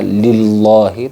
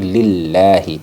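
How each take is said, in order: First: The word is pronounced with a heavy, full sound. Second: The word is pronounced with a thin, light sound. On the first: The speaker calls it wrong. "tidak boleh dibaca lillahi" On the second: The speaker calls it right. "lafaz Allah tarkik lillahi"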